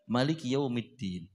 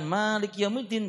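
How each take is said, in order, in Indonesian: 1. Vokal pertama Maliki Yaumiddin dibaca pendek. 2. Vokal pertama Maliki Yaumiddin dibaca panjang.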